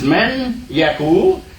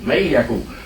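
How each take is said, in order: First: The n sound is clearly pronounced before yaqul. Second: The n is dropped and the y is doubled. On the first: The speaker calls it wrong. "you're not pronouncing actually what's there, which is man Yaqul" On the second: The speaker calls it right. "It's easy to say may Yaqul"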